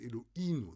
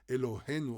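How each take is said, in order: First: No h sound is heard in the middle. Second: An h sound is heard in the middle. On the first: "they say Eloinu... They don't have the Hey" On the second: "They don't say Elohenu"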